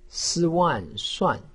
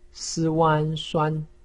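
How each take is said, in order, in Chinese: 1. 音高从高处急剧下降。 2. 音高保持高而平。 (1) "四声" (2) "一声"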